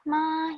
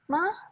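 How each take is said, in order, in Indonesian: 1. Nadanya tetap datar. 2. Nadanya didorong tinggi. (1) "yang pertama ada ma datar aja" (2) "yang keempat nada tinggi tinggi tinggi tinggikan aja"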